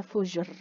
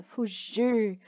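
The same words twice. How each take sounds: First: "fugir" with a short, weak final R; softer "fugir", barely sounding the last R. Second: Slow "fugir" with a strong final R. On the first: Teacher showing pupils the wrong way, "fugir" with a weak, short R. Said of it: "Não é fugir". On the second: Teacher correcting the weak take, slow "fugir" with strong final R. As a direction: draw out "fugir" and its strong R ending. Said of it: "O som de R é forte". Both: Shown as a demonstration.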